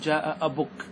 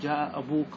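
First: The vowel after the b is a short u. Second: The vowel after the b is a long u. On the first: This is the shortened form without the long vowel. "تنقصها، تحذفها، وتكتفي بالضمة" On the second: This is the complete, standard form. "أن تتم الكلمة فتأتي لها بالواو"

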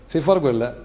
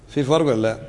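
The two takes are said the same way.

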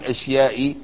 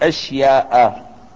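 First: The word ends with an added n sound. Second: The word ends with an a vowel. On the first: The speaker calls it wrong. "لا تنون" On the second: The speaker calls it right. "بل نقول أشياء"

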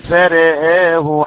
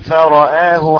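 First: The vowels after r and hamza are tilted. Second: The vowels after r and hamza are open.

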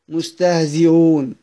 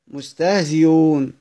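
The two takes are said the same way.

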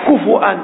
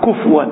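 First: The f sound is followed by a u vowel. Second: The f sound has no vowel after it. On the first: The speaker calls it right. "كفؤا بالهمس" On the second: The speaker calls it wrong. "بعض الناس يقرأ كفوا بالسكون، هذا خطأ"

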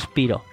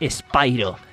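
First: The name is said the usual local Spanish way. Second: The name is said the way the new dubbing says it. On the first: This is how people here have always called it. The speaker calls it wrong. "No es Spiro. Si conocéis a Spiro como Spiro, olvidaos" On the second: This is how the new dubbing says it. The speaker calls it right. "porque es Spyro, ¿vale? Porque ahora en el doblaje nuevo que le han hecho es Spyro"

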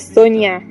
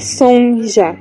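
First: The middle consonant is a y sound. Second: The middle consonant is a zh sound. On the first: The speaker calls it right. "é Sonia" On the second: The speaker calls it wrong. "não é Sonja"

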